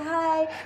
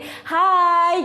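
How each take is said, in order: First: The greeting is small and quiet. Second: The greeting is loud and energetic. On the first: The speaker calls it wrong. "yang awalnya pici-pici" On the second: The speaker calls it right. "jadi hai ... lebih keras lagi"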